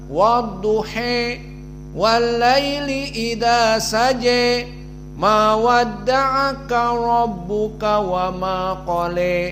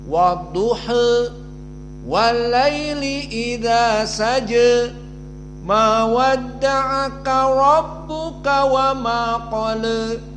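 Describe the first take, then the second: First: The vowel after duh is bent fully toward e. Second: The vowel after duh leans slightly toward e. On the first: "dibaca dengan al-imalah al-kubra" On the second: "condong sedikit kepada kasrah"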